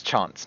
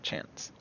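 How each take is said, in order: First: "Chance" with a broad ah vowel; corrected pronunciation. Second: "Chance" with the short a of cat; mistaken pronunciation. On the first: Correcting a player's name slip, "Chance" said with ah. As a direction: say "Chance" as "Chahnce". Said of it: "not Chance". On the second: Showing the wrong name, "Chance" with short a. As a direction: say "Chance" with a flat American a, as in "pants". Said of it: "And it's Chance, not Chance". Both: Shown as a demonstration.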